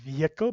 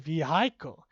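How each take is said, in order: First: The word carries its usual stress pattern. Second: The stress falls on a misplaced syllable. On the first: The speaker calls it right. "don't say vehicle" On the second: The speaker calls it wrong. "That stress is entirely incorrect"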